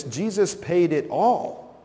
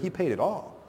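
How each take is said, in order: First: "paid" drawn out with a rising lift, slow; slow quoted line, "paid" stretched and rising; stress on paid. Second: "paid" lifted high and rising, softer; stress on paid. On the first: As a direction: lean into "paid" as the heart of the line. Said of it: "We sang in our song". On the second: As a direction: correct the idea by hitting "paid". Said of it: "He didn't pay most of it". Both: Shown as a demonstration.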